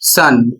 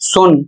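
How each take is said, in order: First: The vowel is a short 'uh' sound. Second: The vowel is a short 'oo' sound. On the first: The speaker calls it right. "इसका उच्चारण सन" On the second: The speaker calls it wrong. "सन को पढ़ेंगे सुन"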